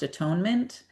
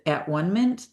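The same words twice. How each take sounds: First: The middle syllable sounds like 'tone'. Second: The middle syllable sounds like 'one'. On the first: "this word is pronounced atonement" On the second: "I prefer to pronounce it At-One-ment"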